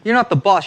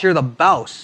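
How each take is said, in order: First: Said in the usual way. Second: "boss" with a drawn vowel, like "bowss"; slangy "boss". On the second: Shown as a demonstration. Host playfully correcting the guest, slangy "boss".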